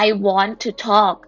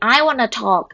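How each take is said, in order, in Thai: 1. 'Want to' พูดเป็นสองคำเต็ม 2. 'Want to' ลดเสียงเป็น 'wanna' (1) "คือเขาต้องการบอก" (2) "ฝรั่งที่ทำไมพูดเร็วจัง... เขาพูดอย่างเงี้ย"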